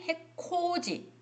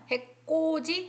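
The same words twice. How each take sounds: First: 해코지 said high and slow with aspirated ㅋ; aspirated 'k' pronunciation. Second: 해코지 said high as [해꼬지], with tense kk; tense 'kk' pronunciation. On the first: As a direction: draw out an airy 코 in 해코지. (해코지의 ㅋ을 거센소리로 높고 길게) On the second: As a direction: give 해코지 a hard unaspirated ㄲ. (해코지를 [해꼬지]로 된소리 내어 높게) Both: Shown as a demonstration. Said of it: "일부러 코자니까 코를 가리킬 때 그렇게 제가 발음을 했는데".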